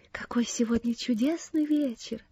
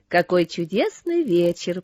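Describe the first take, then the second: First: Soft whisper from inside someone's head; hushed, breath-only exclamation; whispered wonder. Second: Said in the usual way. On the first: A narrator's reading. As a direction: whisper it in quiet delight. Cecy speaks inside Ann's head.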